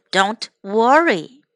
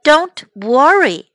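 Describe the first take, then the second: First: Whispered. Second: Said in the usual way. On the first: Shown as a demonstration. Teacher demonstrating a whispered reassurance to the class. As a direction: breathe the words Don't worry with no voice.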